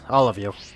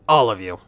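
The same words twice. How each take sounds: First: It is said in a plain, uncommanding tone. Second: It is said in a firm, commanding tone. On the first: The speaker calls it wrong. "I should have said said that in a more commanding tone" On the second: The speaker calls it right. "in a more commanding tone, like"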